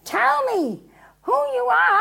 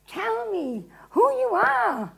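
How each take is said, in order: First: Loud, high-pitched exasperation; exasperated demand. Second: High, slow, drawn-out demand; insistent questioning. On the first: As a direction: demand it, patience gone. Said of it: "And exasperated, he goes again". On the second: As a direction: press the prisoner for an answer. Pilate first questions Jesus. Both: Acted.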